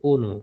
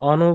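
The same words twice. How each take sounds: First: The first vowel is a closed o sound. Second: The first vowel is an open aw sound. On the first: The speaker calls it right. "বলতে হবে অনু" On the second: The speaker calls it wrong. "অনু বলা যাবে না"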